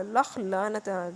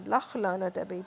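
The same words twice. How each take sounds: First: Drawn out, heavy, each word dragged; slow damning curse. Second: Said in the usual way. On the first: Real, not acted. Narrator curses the husband who left his wife, dragged out slowly. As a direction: spit out a slow curse of contempt.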